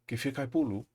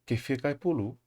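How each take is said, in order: Both takes have the same delivery.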